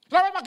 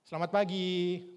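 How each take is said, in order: First: It is shouted in a loud voice. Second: It is said at a calm, moderate volume.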